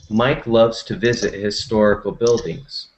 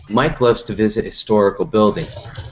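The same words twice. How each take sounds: First: The sentence is read slowly. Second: The sentence is read very quickly. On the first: "So now I'll repeat slowly" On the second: "First, I will read it very quickly"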